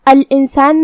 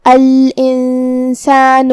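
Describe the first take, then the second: First: Said in the usual way. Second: الانسان chanted very slowly, its first ن hidden in a held nasal hum; hidden noon with ghunna. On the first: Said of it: "یہ حکم کو ادا کریں گے". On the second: Shown as a demonstration. Teacher shows students the ikhfa rule, slow recited الانسان with hummed ن. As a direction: draw out الانسان, humming the ن through the nose before س. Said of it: "حرف نون کو چھپاتے ہوئے اور غنہ کے".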